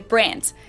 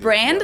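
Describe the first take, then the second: First: The final D sounds like T, German style. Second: The final D is voiced, English style.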